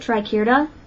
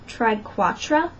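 First: The second syllable has an 'eh' vowel. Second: The second syllable has an 'ah' vowel. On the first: The speaker calls it right. "So I pronounce it triquetra" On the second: The speaker calls it wrong. "Some people pronounce that triquatra"

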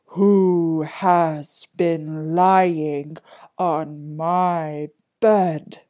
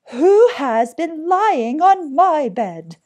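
First: It is said in a deep, big voice. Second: It is said in a medium-pitched voice.

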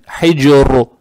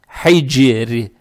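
First: The word ends in a hard 'ru' sound. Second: The word ends in a soft 'ri' sound. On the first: The speaker calls it wrong. "А здесь не надо хайджиру, вот так" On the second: The speaker calls it right. "А здесь ра читается мягко"

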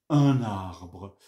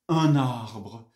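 No difference in how they are said.

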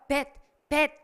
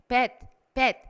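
Both takes have the same delivery.

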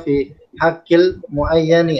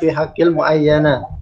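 First: The final word ends with an 'i' vowel. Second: The final word ends with an 'a' vowel. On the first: The speaker calls it right. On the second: The speaker calls it wrong.

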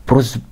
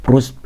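The two takes are said the same way.

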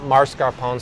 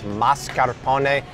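First: The first syllable has an R sound. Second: The first syllable has no R sound. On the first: The speaker calls it wrong. "not mascarpone" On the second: The speaker calls it right. "There's no R there"

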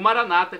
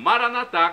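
First: The stress is on the second-to-last syllable. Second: The stress is on the last syllable. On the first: This is how Protestants say it. "com a tônica na penúltima sílaba, como dizem nossos irmãos separados" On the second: This is how Catholics say it. "com a tônica na última sílaba, como dizemos nós católicos"

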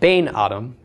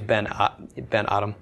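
First: The first word has a long ay vowel. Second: The first word has a short e vowel. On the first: The speaker calls it wrong. "it's not Bain-Adam" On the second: The speaker calls it right. "the vowel shortens to a segel"

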